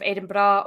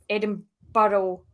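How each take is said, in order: First: It is said with the local Scottish pronunciation. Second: It is said with an American-style pronunciation. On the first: The speaker calls it right. "instead of Edinburgh" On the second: The speaker calls it wrong. "Americans pronouncing Edinburgh, Edinburgh that way"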